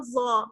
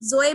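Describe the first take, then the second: First: It is said the Arabic way, with a heavy za. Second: It is said the Urdu way, like zoe. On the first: The speaker calls it right. "अरबी में पढ़ते हैं" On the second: The speaker calls it wrong. "जोए भी नहीं पढ़ना है, ये उर्दू में पढ़ते हैं हम"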